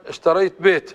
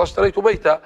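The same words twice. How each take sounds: First: بيت clipped with a silent t; Rabi'a pause form. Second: بيتا ending on an open long a; standard pause form. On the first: Teacher contrasts dialect with standard, clipped. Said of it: "ومثلًا". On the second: Teacher gives the standard form, open final a. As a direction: finish بيتا with a clear a. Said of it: "هي أصلًا". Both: Shown as a demonstration.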